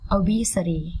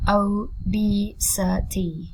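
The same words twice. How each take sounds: First: Said in the usual way. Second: "obesity" slowly in four beats, O, BE, SI, TY; slow teaching breakdown of "obesity"; syllable by syllable. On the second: Shown as a demonstration. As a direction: draw out each syllable of "obesity".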